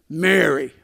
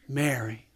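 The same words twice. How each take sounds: First: It is said in a scolding tone. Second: It is said in a warm, hopeful tone.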